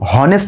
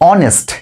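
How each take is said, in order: First: The word starts with an audible h sound. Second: The word starts with a vowel, no h. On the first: The speaker calls it wrong. "কিন্তু আমরা কেউ কি বলি হনেস্ট man" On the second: The speaker calls it right. "দেখো আমরা উচ্চারণটা কি করছি? অনেস্ট।"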